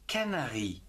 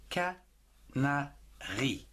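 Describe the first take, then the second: First: Said in the usual way. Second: "Canari" very slowly split into ca, na, ri; syllable by syllable. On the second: Shown as a demonstration. Teacher sounding out a word for learners, "Canari" in three slow syllables. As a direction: break "Canari" into three separate beats, ca - na - ri. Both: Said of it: "En trois syllabes".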